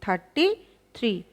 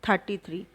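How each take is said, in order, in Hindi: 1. शब्दों के बीच एक छोटा विराम है। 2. शब्द बिना विराम के एक साथ बोले जाते हैं।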